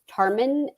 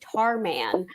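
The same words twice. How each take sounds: First: The last syllable is short and quick. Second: The last syllable is long and stretched. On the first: The speaker calls it right. "she said the last syllable really fast" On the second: The speaker calls it wrong. "draw it out"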